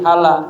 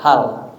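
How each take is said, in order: First: The word ends with an added vowel. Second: The word ends on a bare consonant. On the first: The speaker calls it wrong. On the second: The speaker calls it right. "ujungnya selalu ma sukun"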